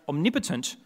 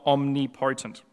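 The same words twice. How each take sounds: First: The stress falls on the second syllable, 'nip'. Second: The stress falls on the 'po' of 'potent'. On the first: The speaker calls it right. "pronounced omnipotent" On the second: The speaker calls it wrong. "not omnipotent"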